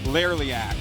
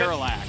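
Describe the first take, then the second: First: The name has an extra "lee" syllable inserted. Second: The name has three syllables, no extra sound. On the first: The speaker calls it wrong. "what do I say? Laraliac" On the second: The speaker calls it right.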